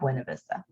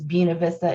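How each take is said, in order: First: It uses the usual non-local pronunciation. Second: It uses the local Winston-Salem pronunciation. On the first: This is how outsiders say it. The speaker calls it wrong. "It is not" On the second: This is how local residents say it. The speaker calls it right. "That is how you say it when you live in Winston-Salem"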